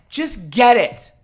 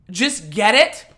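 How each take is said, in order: First: Slow mocking repeat. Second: Mock quote. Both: Mocking a commenter's advice.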